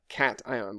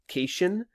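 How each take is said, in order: First: The word begins like 'cat', then 'ion'. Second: The word does not begin like 'cat'. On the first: The speaker calls it right. "like you're saying the word cat, ion" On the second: The speaker calls it wrong. "don't say cation"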